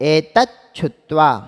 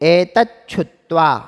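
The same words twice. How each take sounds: The two takes are said the same way.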